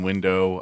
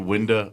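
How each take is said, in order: First: The word ends in an 'oh' sound. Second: The word ends in an 'er' sound. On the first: "I mean window" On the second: "I say window a lot"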